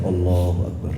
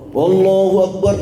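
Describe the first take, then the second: First: It is said softly, not loud at all. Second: It is said loudly, like a leader's call. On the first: The latecomer stays quieter than the leader. The speaker calls it right. "kita lirik-lirik aja lah" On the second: The latecomer sounds as if he were leading the prayer. The speaker calls it wrong. "suaranya persis kayak imam"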